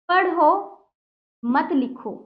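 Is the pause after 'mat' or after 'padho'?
after padho. A pause comes right after 'padho'. The listener is told to read, not write. "पढ़ने को कहा जा रहा है"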